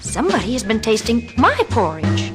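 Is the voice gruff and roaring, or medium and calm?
medium. A medium, moderate voice without roaring. The speaker is merely puzzled. "in her middle-sized voice said"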